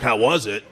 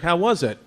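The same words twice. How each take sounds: First: Imitating dad. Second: Said in the usual way. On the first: Comic telling how dad answered about the doctor, imitating him low. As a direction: lower voice, echoing the question as dad. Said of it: "He was like". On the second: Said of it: "I was like".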